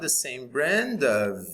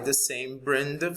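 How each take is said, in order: First: The word 'of' is said in full. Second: The word 'of' is said reduced. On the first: "like the first one" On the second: "Or a weak one, just like in the second example"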